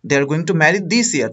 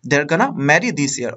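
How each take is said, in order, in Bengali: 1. 'Going to' পুরোটা বলা হয়, দুই শব্দে। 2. 'Going to' এক শব্দে কমে যায়, 'gonna'।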